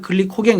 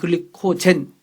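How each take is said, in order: First: The last syllable starts with a hard g sound. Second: The last syllable starts with a j sound. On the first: This is the older way of saying it. "옛날에는 글리코겐 그랬죠" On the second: This is the current way of saying it. "요새는 글리코젠"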